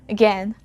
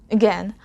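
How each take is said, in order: The two takes are said the same way.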